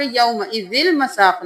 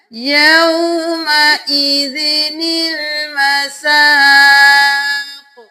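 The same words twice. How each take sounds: First: Quick spoken یومئذ المساق, running zil with no ni; noon skipped. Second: Slow chant, a clear nil linking یومئذ to المساق; sung, give the small noon its full sound and stretch the aa of المساق; sung, noon fully sounded. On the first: Teacher shows the mistake to avoid, noon left out unstretched. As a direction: drop the small noon between یومئذ and المساق. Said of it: "یومئذ المساق نہیں کرنا". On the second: Teacher demonstrates the correct reading, slow sustained chant. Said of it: "چھوٹا نون بھی پورا پورا پڑھا جائے گا". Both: Shown as a demonstration.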